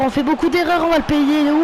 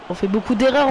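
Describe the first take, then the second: First: Higher, louder exasperated repeat; frustrated repeat. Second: Said in the usual way. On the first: Real, not acted. Gamer venting at his own team's mistakes, exasperated and higher. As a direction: raise it, fed up with the errors.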